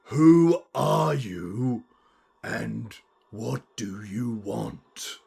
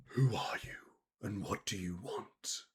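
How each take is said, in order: First: Slow, drawn-out, emphatic menace; louder chilling voice. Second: Hushed, whispery menace; chilling voice. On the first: Unseen being repeats itself for Nana, slow and emphatic. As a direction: spell it out word by word. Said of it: "could you speak up?". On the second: Unseen being speaking into four minds, chilling whisper. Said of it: "you hear a chilling voice". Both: Acted.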